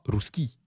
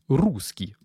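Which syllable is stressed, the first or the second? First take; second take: second; first. First: The stress is on the second syllable. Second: The stress is on the first syllable. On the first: The speaker calls it wrong. "c'est pas rouski" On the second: The speaker calls it right. "on accentue bien le rou"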